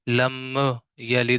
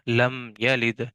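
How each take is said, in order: First: The m is released with an echoing bounce. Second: The m closes cleanly before the next sound. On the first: The speaker calls it wrong. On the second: The speaker calls it right.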